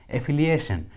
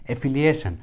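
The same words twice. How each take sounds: The two takes are said the same way.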